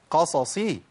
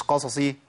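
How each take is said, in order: First: قصصي with both ص distinct and complete; full vowels. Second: قصصي with the vowels snatched short; clipped-vowel mistake. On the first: Teacher giving the correct form, full vowels. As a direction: give each syllable of قصصي its whole vowel. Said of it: "مش قصصي". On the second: Teacher showing the wrong form, vowels cut short. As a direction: blur the two ص in قصصي quickly. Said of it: "مش". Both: Shown as a demonstration.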